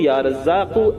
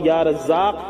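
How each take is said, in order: First: The last word ends with a short vowel. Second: The last word ends on a bare consonant. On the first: The reciter continues without stopping. "जहां मिलाकर पढ़ेंगे लगातार वहां" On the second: The reciter stops here. "जहां ठहरेंगे वहां या रज़्ज़ाक़ पढ़ेंगे"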